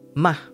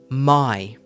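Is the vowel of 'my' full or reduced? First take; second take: reduced; full. First: It is said with a short reduced vowel. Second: It is said with a full diphthong vowel. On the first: "the weak form is ma" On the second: "here's the last one that I've got for you today is my"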